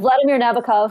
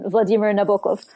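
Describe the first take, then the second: First: It has an English pronunciation. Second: It has a Russian pronunciation.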